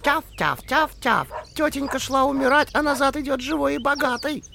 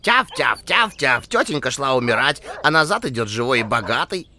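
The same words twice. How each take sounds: First: High yapping little dog voice; yappy panting puppy. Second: Loud yapping little dog voice; yappy panting puppy. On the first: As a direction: yap it out like a tiny dog. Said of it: "затявкала". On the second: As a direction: keep yapping like a small dog. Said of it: "продолжила тявкать". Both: Acted.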